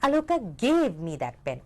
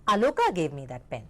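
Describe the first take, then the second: First: The stress falls on the word pen. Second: The stress falls on the name Aloka. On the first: The pen was given and nothing else. "उन्होंने मुझे pen दे दिया और कुछ नहीं" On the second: This person gave it, and nobody else did. "यानी कि आलोका ने मुझे वो पेन दिया और किसी ने नहीं"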